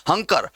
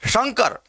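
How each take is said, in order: First: हंकर with an h where sh belongs; h replacing sh. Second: शंकर with a clear palatal श, higher pitch; correct palatal sh. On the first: Teacher shows the common slip, h sound in हंकर. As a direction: mispronounce Shankar as हंकर, starting on h. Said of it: "हंकर ही बोलते हैं". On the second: Teacher corrects the slip for students, palatal sh in शंकर. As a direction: begin शंकर on sh, tongue toward the palate. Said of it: "तालु को स्पर्श करे". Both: Shown as a demonstration.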